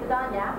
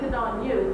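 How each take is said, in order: First: The last word is reduced to 'ya'. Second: The last word is a full 'you'. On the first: "it's good on ya" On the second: "it's not even good on you"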